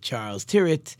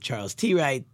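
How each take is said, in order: First: The surname sounds like 'tirrett'. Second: The surname sounds like 'tee right'. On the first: "I think people pronounce it" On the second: "I always pronounce it"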